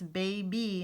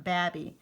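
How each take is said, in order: First: Put-on "baby" as bay-bee, long A in an open syllable; long A reading. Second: "babby" with a short A, rhyming with cabby; short A misreading. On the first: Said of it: "If you use open or closed syllables". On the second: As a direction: say "babby" as the wrong closed-syllable reading. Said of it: "and not babby". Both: Shown as a demonstration.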